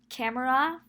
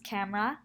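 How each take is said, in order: First: The word has three syllables. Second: The word has two syllables.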